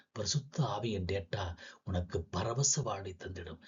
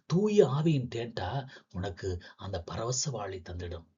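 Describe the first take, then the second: First: Hushed, unvoiced whisper of the line. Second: Said in the usual way. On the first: Poet whispers the blessing to listeners, hushed. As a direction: breathe it out as a secret.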